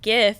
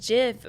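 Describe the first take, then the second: First: The word begins with a hard G sound. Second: The word begins with a soft J sound. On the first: "is with a G" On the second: "like the peanut butter, is with a J"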